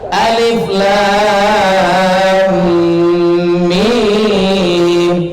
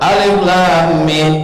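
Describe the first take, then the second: First: The vowels are drawn out, recited slowly. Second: The vowels are cut short, recited quickly. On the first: The speaker calls it right. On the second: The speaker calls it wrong.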